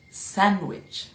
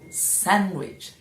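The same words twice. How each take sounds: Both takes have the same delivery.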